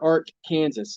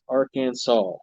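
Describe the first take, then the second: First: The word ends like the state name Kansas. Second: The word ends with a 'saw' sound. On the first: The speaker calls it wrong. "never Ark, Kansas" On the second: The speaker calls it right. "It's Arkansas"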